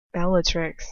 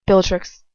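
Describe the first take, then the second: First: Said in the usual way. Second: "Bellatrix" said with a P, as "Pillatrix"; "Bellatrix" slurred to "pill-a-trix"; mispronounced name. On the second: Shown as a demonstration. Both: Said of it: "What did I say?".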